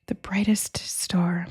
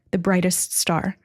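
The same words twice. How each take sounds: First: Slow, breathy whispered awe; awed whisper. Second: Said in the usual way. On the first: Real, not acted. Reader awed by the brightest star, whispering slowly. Psychic reading, awed repetition.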